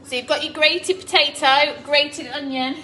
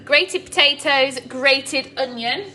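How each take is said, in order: First: Said in the usual way. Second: Grated potatoes, grated onion said slow and louder, each word spelled out; slow emphatic recap. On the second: Shown as a demonstration. Recapping ingredients for viewers, slow and emphatic. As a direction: lay out "grated" slowly like a list. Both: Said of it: "recapping the recipe ingredients".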